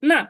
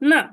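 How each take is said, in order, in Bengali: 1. পিচটা হঠাৎ নিচে নামছে। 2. পিচটা হঠাৎ নিচে নামছে।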